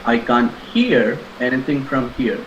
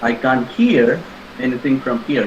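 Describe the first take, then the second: Both takes have the same delivery.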